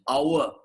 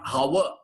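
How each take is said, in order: First: The word begins directly with the vowel sound. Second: The word begins with an audible h sound. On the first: The speaker calls it right. "Remove the H. This is the pronunciation" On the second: The speaker calls it wrong. "This is not our"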